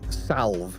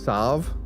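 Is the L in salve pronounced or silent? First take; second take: pronounced; silent. First: The L sound is pronounced. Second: The L sound is silent. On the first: "put keep the L in there" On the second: "technically, salve is meant to be pronounced salve"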